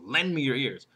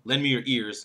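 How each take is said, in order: First: The word lend is stressed. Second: The word ears is stressed. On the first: The request itself is what matters. "First one is what I want" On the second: Give ears, not another body part. "And the fourth one, not your hands"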